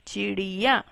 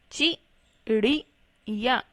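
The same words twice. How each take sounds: First: Said in the usual way. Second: चिड़िया slowly split into chi, ri, ya; slow spelling-out reading of चिड़िया in three parts; syllable by syllable. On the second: Shown as a demonstration. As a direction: sound out चिड़िया with gaps between syllables. Teacher sounds out word by syllables.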